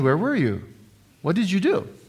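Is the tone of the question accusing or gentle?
gentle. The questions sound warm and gentle. The asker is caring and interested. The speaker calls it right. "Instead of saying, "Honey"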